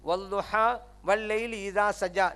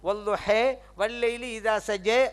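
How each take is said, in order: First: The long vowels are open 'a' sounds. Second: The long vowels are tilted toward 'e' sounds. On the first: "நீ கேட்டிருப்பீங்க" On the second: "இதை இன்னொரு கராத்து எப்படி தெரியுமா? ... அப்படி ஒரு கராத்து இருக்குது"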